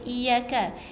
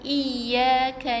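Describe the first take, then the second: First: The y sound is short and single. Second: The y sound is pressed and doubled. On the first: The speaker calls it wrong. "Tak boleh iyyaka" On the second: The speaker calls it right. "macam kita baca iyyaka na"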